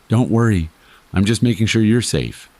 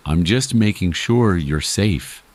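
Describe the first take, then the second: First: Higher, easy and offhand; casual reassurance. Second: Slow, drawn-out replay of the words; echoed in memory. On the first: Watching stranger answers the frightened narrator, casually reassuring. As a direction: toss off the reassurance in a raised, casual voice. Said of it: "in the most casual voice I've ever heard". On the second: Narrator replays the stranger's words that night, slow and echoing. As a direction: stretch it out slowly, like words looping in the head. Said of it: "His words looped in my head like static". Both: A narrator's reading.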